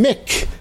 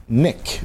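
First: "Mick" with a clear, held M; M at the start. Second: "Nick" with a clear N; N at the start. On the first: Complaining about his misheard name, "Mick" with a clear M. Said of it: "They always think I'm saying Mick". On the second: Correcting his misheard name, "Nick" with a clear N. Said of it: "but it's Nick". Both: Shown as a demonstration.

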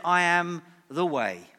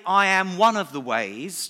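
First: "I" stressed, falling firmly on "way"; "I" stressed, firm falling close. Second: A touch louder, as the rejected claim; mock alternative, lightly pushed; wrong version. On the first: Retold or imitated. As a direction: land "I am the way" with final certainty. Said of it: "Jesus said". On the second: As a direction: set it up as what he never said. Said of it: "Jesus didn't say".

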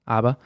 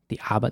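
First: Said in the usual way. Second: Boston accent. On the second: Shown as a demonstration. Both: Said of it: "That's my Boston accent there".

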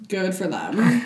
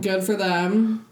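First: Said in the usual way. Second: Slow, stretched good for them; drawn-out praise. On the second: Real, not acted. Praising the girls who made careers of it, slow and drawn.

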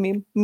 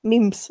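First: "meme" ending on the m, without s; no final s. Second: "Memes" said with the s on the end; final s sounded. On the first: Host rejecting the singular, "meme" with no final s. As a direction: close "meme" on the m. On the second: Host correcting own word, "Memes" with a final s. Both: Shown as a demonstration. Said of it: "όχι meme".

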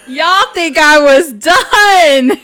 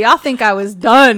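First: Loud, slow, higher holler; hammed-up, stretched-out twist reveal; dramatic repeat. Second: Loud, emphatic tease; punchy lead-in to a twist; teasing reveal. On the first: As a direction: drag out DONE at full volume. Repeats tease, dragged out and bigger. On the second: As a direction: announce it loudly at normal pitch. Teases audience before the twist. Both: Real, not acted.

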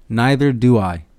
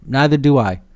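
First: "Neither" hit first, "do I" falling away; stress on neither. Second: "do" hit hard with a falling tune; stress on do. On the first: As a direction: punch "Neither" and let the rest drop. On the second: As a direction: lean on the word "do", then drop. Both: Shown as a demonstration. Repeats line with shifted stress.

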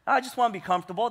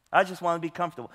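First: Rushed, chuckling imitation of the phrase; laughing, fast mock quote. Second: Said in the usual way. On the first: Pastor mocking churchgoers' excuse, laughing and fast. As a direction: toss it off quickly through a laugh. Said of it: "That's exactly what". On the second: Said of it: "this common phrase".

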